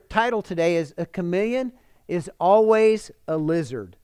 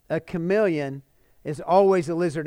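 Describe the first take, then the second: First: Said in the usual way. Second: "A Chameleon" then a pause, "is Always a Lizard" with Always stressed; slow emphatic title. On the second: Shown as a demonstration.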